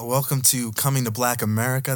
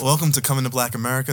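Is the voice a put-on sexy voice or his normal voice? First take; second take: sexy voice; normal voice. First: It is said in a put-on sexy voice. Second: It is said in his normal voice.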